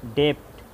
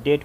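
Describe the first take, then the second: First: डेप्ट read as spelled, with the b sounded; letter-by-letter reading of डेप्ट. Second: डेट said as debt, with no b sound; silent b. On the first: Teacher showing the wrong spelled reading. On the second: Teacher giving the correct silent-b reading. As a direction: drop the b in डेट. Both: Shown as a demonstration. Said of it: "डेट पढ़ाएगा".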